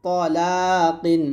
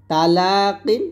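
First: তলাকিন with heavy t and rounded 'aw', slow; thick to. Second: তালাকিন with light t and open 'a'; thin ta. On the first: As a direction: fatten the start of তলাকিন, stretch লা. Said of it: "ত মোটা করে". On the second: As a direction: keep the start of তালাকিন thin, stretch লা. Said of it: "তাটা পাতলা হবে". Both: Shown as a demonstration.

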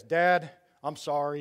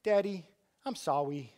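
First: A hint of a gruff teen apology; teen son apologizing. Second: Put-on mild sweet little-kid voice; a light touch of a cute small boy saying sorry; dad imitates his younger son saying sorry, sweetly; little boy apologizing. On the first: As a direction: play a fourteen-year-old saying sorry, lightly voiced. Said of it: "He'll talk like this". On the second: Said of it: "but Nate's like".

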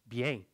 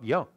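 First: Bien said "bee-eng", with an e vowel; Old French pronunciation. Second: Bien said "bya", with an open nasal ending; modern French pronunciation. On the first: Teacher repeating the old form, bien as "bi-eng". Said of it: "like in Old French". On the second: Teacher rejecting it as too recent, bien as "bya". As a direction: say bien as "byã". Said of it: "Bien, it's a modern". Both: Shown as a demonstration.

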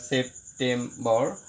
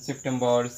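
First: September slowly, as sep, tem, bor; short gaps between the three syllables of September; broken into syllables. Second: Said in the usual way. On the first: Shown as a demonstration. Teacher showing three syllables, September slowly divided. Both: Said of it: "সেপ্টেম্বরকে ভাঙলে আমরা তিনটে".

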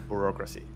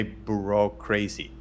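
First: Said in the usual way. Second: "bureaucracy" with the end said as "crazy"; punning mispronunciation. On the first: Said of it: "not bureaucracy". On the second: Shown as a demonstration. Researcher mocking academic red tape, punning "bureaucracy" into "bureau-crazy". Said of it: "I like it to say bureaucracy".

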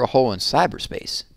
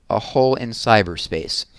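First: Said in the usual way. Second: Slow, deliberate echo of CYBERSPACE; sceptical repeat. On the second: A narrator's reading. Lawyer echoing the official's excuse about cyberspace, sceptical. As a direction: repeat "A hole in cyberspace" slowly, weighing each word. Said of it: "Miss Marengo repeated".

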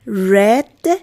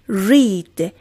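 First: "Read" with a short e, like "red"; past-tense "Read", vowel as in "met"; past-form pronunciation. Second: "Read" with a long ee, like "reed"; present-tense "Read", vowel as in "see"; base-form pronunciation. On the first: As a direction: say "Read" to rhyme with "bed". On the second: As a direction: say "Read" to rhyme with "need". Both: Shown as a demonstration.

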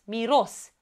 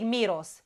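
First: "Miros" stressed as mi-ROS; stress on last syllable. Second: "miros" stressed at the start, MI-ros; stress on first syllable. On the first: Teacher giving the correction, "Miros" stressed on ROS. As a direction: put the weight on the O of "Miros". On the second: Teacher showing what not to say, "miros" stressed on MI. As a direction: hit the I of "miros". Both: Shown as a demonstration. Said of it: "Că nu zic miros".

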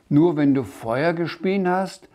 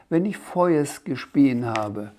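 First: Said in the usual way. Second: „Feuers“ endet auf S statt R. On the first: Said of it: "fragte der Sams". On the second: A narrator's reading. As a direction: langsam „Feuers“ mit S am Ende sagen. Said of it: "Du kannst kein R". (Sprachfehler: gedehntes „Feuers“ mit S)

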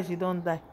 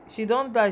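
First: Much softer, sinking repeat of she don die; soft sad echo. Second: Said in the usual way. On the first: Real, not acted. Grieving the dead woman, repeating it softly to viewers. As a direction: let she don die fade out in grief.

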